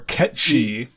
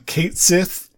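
First: The name is said as 'ketchy', ending in 'chee'. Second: The name is said as spelled, ending in 'sith'. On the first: This is the original Irish pronunciation. "Ketchy is the actual pronunciation of those words in Irish" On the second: This is how almost everyone says it. "they pronounce his name Kaitsith"

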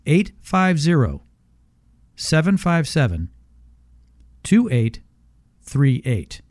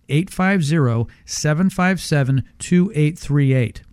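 First: The number is said very slowly. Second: The number is said quickly.

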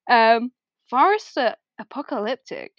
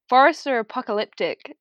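First: The line is read in a mocking tone. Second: The line is read in a sincere tone. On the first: The reader is making fun of the writer. "I read it in a very, like, I'm making fun of him" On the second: The reader genuinely likes the line. "but actually I really like the line. I'll give it to you again"

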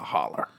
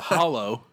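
First: The word ends with an 'er' sound. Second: The word ends with an 'oh' sound. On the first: This is the regional West Virginia form. "back in West Virginia, we call it a holler" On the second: This is the standard form of the word. "It's actually a hollow"

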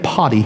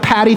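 First: The name is said with an Irish accent. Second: The name is said without an Irish accent. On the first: "they kind of call it like potty" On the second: "I don't have the Irish accent"

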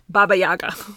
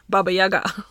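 First: It is said with English stress. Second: It is said with Russian stress.

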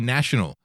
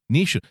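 First: The first vowel sounds like a plain A. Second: The first vowel sounds like an E. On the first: "I say national" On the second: "New Zealanders say national, like it's an E"

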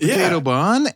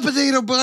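First: The voice keeps rising at the end. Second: The voice falls to a final close. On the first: The story never comes to a conclusion. The speaker calls it wrong. "Aaron told a story and just kept going up" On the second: The story has reached its conclusion. The speaker calls it right. "there's normally a tone in your voice where it's like"

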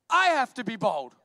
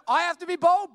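First: The stress is on the word I. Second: The stress is on the word bold.

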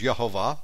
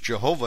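First: The name begins with a Y sound. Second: The name begins with a J sound. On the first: "The actual pronunciation is Yehovah, spelled with a Y" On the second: "You can read it as Jehovah in English"

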